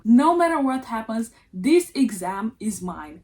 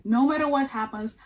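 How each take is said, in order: First: "No matter what happens" said louder with a firm push on "matter"; determined vow. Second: Said in the usual way. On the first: Retold or imitated. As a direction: declare "No matter what happens" like an unbreakable oath, hitting "matter". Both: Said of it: "It's time to man up".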